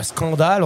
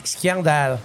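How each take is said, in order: First: Said in the usual way. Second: "scandale" in Grenoble accent, said "skian-dal". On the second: Shown as a demonstration. Local showing the radio host how Grenoble says it, Grenoble accent. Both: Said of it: "il y a de l'accent".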